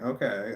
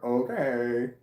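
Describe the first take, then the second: First: It is said in a sincere, agreeing tone. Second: It is said in a sarcastic tone. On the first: The speaker simply agrees. The speaker calls it right. "instead of saying okay" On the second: The speaker seems not to really agree. The speaker calls it wrong. "it sounds like okay or okay, ... sounding like sarcasm"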